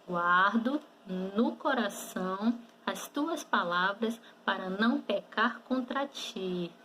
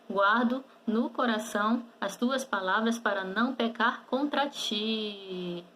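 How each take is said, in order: First: The sentence is spoken at normal speed. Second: The sentence is spoken quickly. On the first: "E agora vamos falar normalmente" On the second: "Vamos falar um pouquinho mais rápido?"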